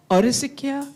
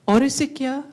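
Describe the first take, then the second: No difference in how they are said.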